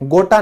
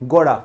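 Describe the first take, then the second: First: The middle t sound is hard and crisp. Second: The middle t sound is soft, like a d. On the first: The speaker calls it wrong. "गोटा नहीं है" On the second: The speaker calls it right. "इसको थोड़ा soft रखना"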